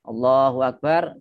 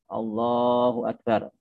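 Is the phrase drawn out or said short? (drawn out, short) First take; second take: short; drawn out. First: The phrase is said short and ends quickly. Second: The phrase is drawn out for a long time. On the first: The words end early and part of the movement is empty. The speaker calls it wrong. "sudah selesai" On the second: The words fill the whole movement so no moment is empty. The speaker calls it right. "saya berdiri gitu, panjang"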